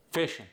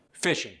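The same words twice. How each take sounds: First: "Fishing" ending in a plain N, fishin'; dropped G. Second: Said in the usual way. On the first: Shown as a demonstration. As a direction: drop the G of "Fishing". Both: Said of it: "dropping the G".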